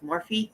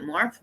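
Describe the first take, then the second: First: Morphe said as "MOR-fee"; two-syllable pronunciation. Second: Morphe said as "morf", silent final e; one-syllable pronunciation. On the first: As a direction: end Morphe on a clear "fee". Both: Shown as a demonstration. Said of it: "don't know how to s-, pronounce it".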